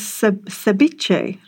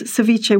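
First: The middle consonant is a b sound. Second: The middle consonant is a v sound. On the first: "ceviche with a B" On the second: "ceviche with a V"

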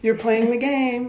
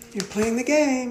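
First: It is said imitating the other person's voice. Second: It is said in the speaker's normal voice.

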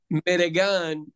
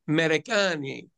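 First: It is clipped, without the first or last vowel. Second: It is said in full, with the final vowel. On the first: The speaker calls it wrong. "as things got mispronounced" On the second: The speaker calls it right. "if you think about Italian"

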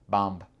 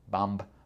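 First: A b sound is pronounced after the m. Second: A b sound is pronounced after the m.

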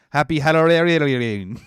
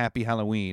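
First: It is said in a Spanish accent, with drawn-out L's. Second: It is said plainly, without a foreign accent.

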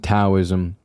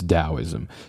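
First: The word begins with a T sound. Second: The word begins with a D sound. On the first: The speaker calls it wrong. "it isn't Taoism" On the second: The speaker calls it right. "it should always be pronounced with a D sound"

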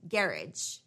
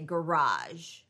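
First: It is said with a British pronunciation. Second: It is said with an American pronunciation. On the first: "in the U.K. they say garage" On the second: "we in America say garage"

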